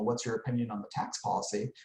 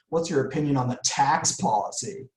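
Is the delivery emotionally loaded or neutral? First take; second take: neutral; emotionally loaded. First: It is asked in a flat, neutral tone. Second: It is asked with a loaded, emotional tone. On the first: The question does not push any feeling. The speaker calls it right. "I use the neutral phrasing" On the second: The asker nudges the listener toward a feeling about the policy. The speaker calls it wrong. "But I say it like this"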